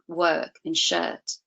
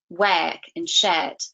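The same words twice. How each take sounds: First: The vowels are standard, not fronted. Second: The vowels are fronted, like in square.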